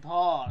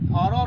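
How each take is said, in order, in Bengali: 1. শেষ ব্যঞ্জন ধ্বনিতে শেষ হয়। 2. শেষ ব্যঞ্জনের পরে একটি স্বরধ্বনি আসে।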